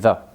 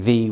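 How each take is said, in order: First: The word is unstressed with a reduced vowel. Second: The word is stressed with a full vowel. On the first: The speaker calls it right. "we say the" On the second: The speaker calls it wrong. "We don't usually say the"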